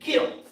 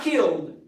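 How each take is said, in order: First: The word ends with a T sound. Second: The word ends with a D sound. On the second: "Not K I L L E D"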